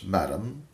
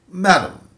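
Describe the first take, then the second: First: Said in the usual way. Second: "Madam" called out high and loud, falling; a caller begging the landlady to listen; pleading. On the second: Acted. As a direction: plead "Madam" loudly, rising high then dropping. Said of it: "I pleaded".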